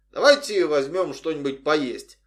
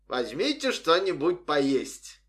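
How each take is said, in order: First: Said in the usual way. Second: Slow mock English-accented parody. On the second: A narrator's reading. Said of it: "он произнёс с английским акцентом, пародируя врача".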